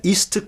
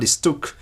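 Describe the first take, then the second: First: "ist" accented at its start; stress on first syllable. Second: "istuk" accented on TUK; stress on final syllable. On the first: Lecturer showing the wrong reading, "ist" stressed at the start. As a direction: put the weight on the opening I of "ist". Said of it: "is not read". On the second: Lecturer showing the correct reading, "istuk" stressed on TUK. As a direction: put the weight on TUK in "istuk". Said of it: "derives from an original istuke". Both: Shown as a demonstration.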